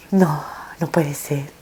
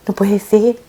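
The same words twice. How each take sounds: First: Slow breathless whisper of disbelief; hushed, slow whisper of denial; stunned whisper. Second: Said in the usual way. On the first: Retold or imitated. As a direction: whisper "No, no puede ser" slowly, as if to herself. Disbelief at son's death.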